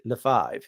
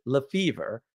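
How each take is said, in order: First: Lefebvre said the French way, with the b sound; French pronunciation. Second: Lefevre said the Americanized way, no b sound; American pronunciation. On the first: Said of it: "We don't pronounce it". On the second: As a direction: say Lefevre as the family's American version. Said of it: "we pronounce it Lefevre". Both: Shown as a demonstration.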